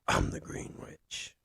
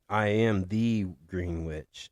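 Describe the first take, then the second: First: It is said in a gravelly Batman-like voice. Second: It is said in his normal voice.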